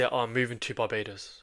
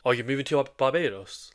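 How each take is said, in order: First: Said in the usual way. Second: Mirrored Barbados asked back with a rising pitch; mirror with a high tone. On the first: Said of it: "like, they say". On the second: Shown as a demonstration. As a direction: repeat Barbados back with an upward inflection, going high on Barbados. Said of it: "Like, go high with it".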